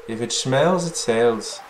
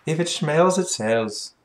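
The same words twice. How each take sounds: First: Shopkeeper motto. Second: Much higher, louder mock shopkeeper singsong; hammed-up motto. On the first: Retold or imitated. Shopkeeper invites the newcomer to sell catch, lightly voiced. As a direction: sell it like a folksy old shopkeeper saying. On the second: Streamer mocks the shopkeeper's old papa's saying, hammed-up higher voice. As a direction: repeat the saying as a hammed-up joke. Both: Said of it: "That's what my old papa used to say".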